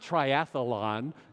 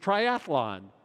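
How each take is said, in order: First: An extra vowel is inserted in the middle. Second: No extra vowel is inserted in the middle. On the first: The speaker calls it wrong. "It's not triathlon" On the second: The speaker calls it right. "it's triathlon"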